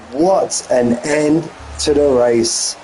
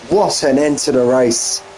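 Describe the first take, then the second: First: Stretched out, slow and amazed; slow, awed. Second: Said in the usual way. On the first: Real, not acted. Commentator marvelling at the race finish, slow and awed. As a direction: let the words hang in slow wonder.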